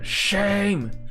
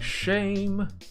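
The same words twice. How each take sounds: First: The word is said with a rough, gritty voice. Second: The word is said in a plain, smooth voice. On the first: "add like roughness to your voice" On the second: "instead of saying shame"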